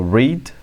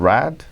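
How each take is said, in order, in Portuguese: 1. É pronunciado como a forma do presente. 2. É pronunciado como a forma do passado. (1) "no presente é read" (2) "no passado read"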